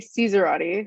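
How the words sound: It is said with an American pronunciation. The speaker calls it wrong. "a horrible American pronunciation of the actual Italian name"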